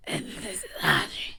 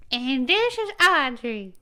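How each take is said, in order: First: Whispered voice-train intro. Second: Put-on slow Southern-accented intro. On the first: Pretend. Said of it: "I'll voice train them". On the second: Audrey introducing herself in her Southern voice. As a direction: drag it out, Southern style. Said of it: "So, here's mine".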